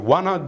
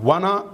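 Both takes have the same delivery.

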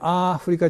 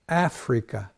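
First: It is said with flat Japanese syllables. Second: It is said with a strong first syllable. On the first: The speaker calls it wrong. "日本式にアフリカじゃなくて" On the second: The speaker calls it right. "A の音が強くなって"

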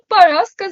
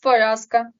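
First: The unstressed vowel is pronounced like a. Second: The unstressed vowel is pronounced as a clear o. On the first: The speaker calls it wrong. "баба Параска" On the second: The speaker calls it right. "замість Параска"

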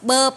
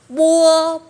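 First: The vowel is a plain 'uh' after the b. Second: The vowel glides like 'uo' after the b. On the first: This is the Taiwanese way of saying it. "Bên Đài Loan đọc bơ" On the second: This is the mainland Chinese way of saying it. "bên Trung họ sẽ đọc bua"

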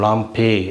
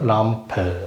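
First: The final vowel sounds like 'e'. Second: The final vowel sounds like a short 'a'. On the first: "லாம் பே அது கூட சொல்லலாம்" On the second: "ஒரிஜினல்"

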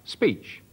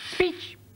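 First: It is said at normal speed and pitch. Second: It is said faster and at a higher pitch. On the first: The tape plays at its usual speed. "at a constant speed, the recording head says speech, like that" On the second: The tape plays at twice the speed. "it pushes it up in pitch"

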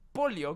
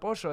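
First: The word is said in a neutral accent. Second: The word is said in an Argentine accent. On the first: "¿cómo se dice si no, boludo?" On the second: "Yo soy argentino, le digo pollo al pollo, está bien dicho"

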